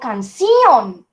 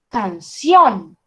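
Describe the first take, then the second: First: The stress falls on the i sound. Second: The stress falls on the o sound. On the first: The speaker calls it wrong. "será en la I? ... eso también suena raro" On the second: The speaker calls it right. "En la O, en la O"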